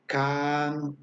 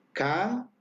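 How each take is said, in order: First: "can" with the vowel held extra long; exaggerated long a in "can"; stretched long vowel. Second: "can" with the vowel drawn out; long held a in "can", exaggerated for learners; teacher stretching the a of "can"; stretched long vowel. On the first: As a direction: drag out the a in "can" to double length. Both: Shown as a demonstration. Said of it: "voy a exagerar un poquito el sonido".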